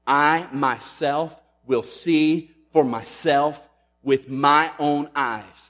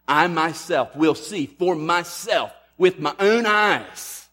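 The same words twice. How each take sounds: First: Slow, every word weighted, myself and own pressed hard; emphatic. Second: Higher, louder and slow, peaking on "own"; very emphatic. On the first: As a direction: drive home "myself" and "my own eyes", slowly and louder. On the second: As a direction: lift the whole line and land hard on "own". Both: Shown as a demonstration. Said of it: "is very emphatic".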